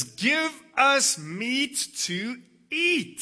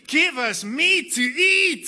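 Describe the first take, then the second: First: Loud, slow, high demanding cry. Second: Loud, high, slow whining demand; mock wailing. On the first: Retold or imitated. Hungry people crying out to Moses, loud and slow. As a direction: drag out the demand for meat. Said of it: "they're crying out to Moses". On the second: Moses mimicking the people's wailing, loud and high. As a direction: wail the demand like a spoilt crowd. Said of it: "They keep wailing to me".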